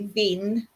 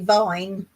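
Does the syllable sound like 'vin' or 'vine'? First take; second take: vin; vine. First: The vowel is short, as in 'vin'. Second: The vowel is long, as in 'vine'. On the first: This is how it is said in Cyprus. "in Cyprus they say vin" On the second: This is how it is said in England. "in England we say vine"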